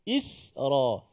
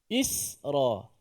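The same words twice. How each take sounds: First: The s sound is light and thin. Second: The s sound is light and thin.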